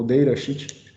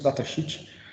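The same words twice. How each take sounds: First: It is pronounced with English-style sounds. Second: It is pronounced with Portuguese-style sounds. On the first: "em inglês" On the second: "aportuguesando aí a pronúncia"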